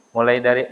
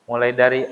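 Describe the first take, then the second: No difference in how they are said.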